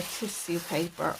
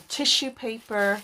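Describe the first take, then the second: First: "tissue" said as TISS-yoo. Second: "tissue" said as TISH-oo. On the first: Crafter offering two ways to say it, "tissue" as TISS-yoo. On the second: Crafter offering the other way to say it, "tissue" as TISH-oo. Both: Shown as a demonstration. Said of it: "however you like to pronounce it".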